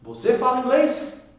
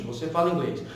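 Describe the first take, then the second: First: "Você fala inglês" higher, rising at the end; question intonation. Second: "Você fala inglês" lower and falling at the end; affirmative intonation. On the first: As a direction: lift "inglês" as if asking. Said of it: "virou pergunta no presente". ("Você fala inglês" perguntando, subindo no final) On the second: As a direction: let "inglês" drop like a statement. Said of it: "aqui é uma frase afirmativa". ("Você fala inglês" afirmando, caindo no final) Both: Shown as a demonstration.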